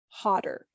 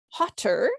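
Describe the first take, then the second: First: The middle consonant sounds like a D. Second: The middle consonant is a clear T. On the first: "try to pronounce it as a D" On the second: "Rather than"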